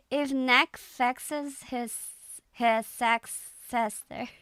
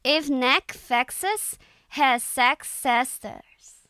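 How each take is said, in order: First: Slow Irish accent, retried; hesitant Irish accent take. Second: Slow, careful Irish accent reading; tentative Irish accent attempt. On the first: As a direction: read it in an Irish accent again, slowly. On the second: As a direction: read it out slowly in an Irish accent. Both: Shown as a demonstration. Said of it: "I'm just reading it in an Irish accent".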